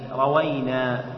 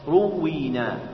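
First: It starts with a and a single w. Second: It starts with u and a doubled w. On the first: We sought out and drew the narration from our teachers. "فتح الراء والواو بلا تشديد" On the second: Our teachers narrated it to us on their own initiative. "ضم الراء وكسر الواو مشددة"

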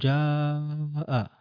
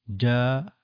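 First: The long vowel is stretched excessively long. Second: The long vowel is held about double length. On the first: The speaker calls it wrong. "وبعض الناس يمد مدا طويلا يقول جاء" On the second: The speaker calls it right. "جاء ضعفه"

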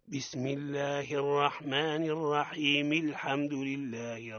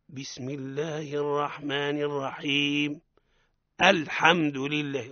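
First: Alhamdu is linked on, with its opening hamza dropped. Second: A stop, then alhamdu begins with a clear hamza. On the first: The recitation continues without stopping. "هكذا" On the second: The reciter has stopped before starting a new phrase. "اما اذا وقف"

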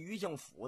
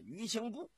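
First: The last syllable is pronounced fu. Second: The last syllable is pronounced bu. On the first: This is how local people say it. "天津有个叫余庆府的" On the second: This is the reading the written character calls for. "应该念呢余庆埠"

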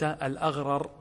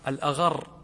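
First: The two r sounds are said separately. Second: The two r sounds merge into one long r. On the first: The speaker calls it wrong. "لو قلت الأغرر هذه غير فصيحة" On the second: The speaker calls it right. "هذا فصيحة"

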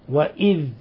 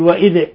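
First: The final dh ends smoothly without a bounce. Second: The final dh ends with an echoing bounce. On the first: The speaker calls it right. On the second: The speaker calls it wrong.

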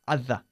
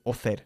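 First: The first vowel is a short 'uh' sound. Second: The first vowel is an open 'aw' sound. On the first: The speaker calls it right. "it's other" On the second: The speaker calls it wrong. "We don't say author"

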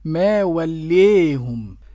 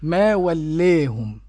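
First: The long vowel is tilted strongly toward 'ee'. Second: The long vowel is tilted slightly toward 'ee'. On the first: "والإمالة الكبرى تكون هكذا" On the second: "والتقليل"

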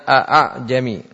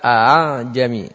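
First: The second hamza is pronounced fully. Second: The second hamza is softened. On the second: "kemudian dibaca"

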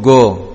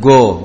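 First: It starts with a hard g stop. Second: The same.

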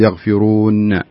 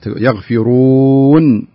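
First: The final n ends with an echoing bounce. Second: The final n ends plainly without a bounce. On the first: The speaker calls it wrong. "لا تقول يغفرون ينفقون، هذه يعتبر خطأ لأنك يعني سويت القلقلة" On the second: The speaker calls it right. "لا تسوي القلقلة فيها هذه. يغفرون بهذه الطريقة"

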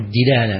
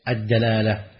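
First: The first syllable has the vowel i. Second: The first syllable has the vowel a. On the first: The speaker calls it wrong. "فكثير من الناس تجد أنه يقول وجه الدلالة من هذا الحديث، صحيح" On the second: The speaker calls it right. "لكن الأفصح وجه إيش؟"

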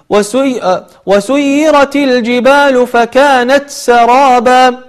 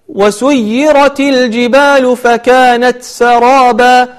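No difference in how they are said.

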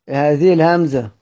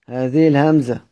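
The two takes are said the same way.

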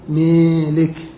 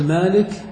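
First: The long vowel is tilted toward 'ee'. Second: The long vowel is a plain open 'aa'. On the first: "ولك أن تميل فتقول ميلك" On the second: "فلك أن تقول مالك"

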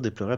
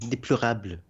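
First: The word is said quickly with syllables run together. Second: Each syllable of the word is pronounced distinctly. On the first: "elle va pas dire déplorable" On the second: "elle prononce chaque syllabe"

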